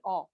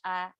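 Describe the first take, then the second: First: The vowel is rounded and open. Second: The vowel is flat and spread.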